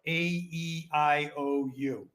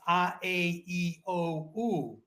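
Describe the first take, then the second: First: The vowel letters are named with English sounds. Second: The vowel letters are named with Italian sounds. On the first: The speaker calls it wrong. "in America, y- you're taught A, E, I, O, U" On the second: The speaker calls it right. "in Italy it, it's"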